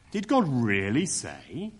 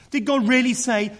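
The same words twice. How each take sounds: First: Slow, drawn-out sneer of mock surprise. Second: Higher and louder, "God" leaned on, then falling; exaggerated mock disbelief. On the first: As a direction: let the doubt drip slowly off "Did God really say". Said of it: "It's more a kind of sneer". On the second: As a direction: overplay the disbelief in "Did God really say". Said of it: "Notice the exaggeration".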